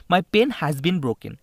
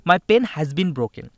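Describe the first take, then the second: First: Very slow and louder, word by word; teacher reading a test sentence to students, very slowly; slow dictation. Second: Very slow and louder still, each word pressed; slow emphatic re-read. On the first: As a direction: read the sentence out slowly for the class. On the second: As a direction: hammer the sentence out again word by word. Teacher re-reading the question. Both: Shown as a demonstration.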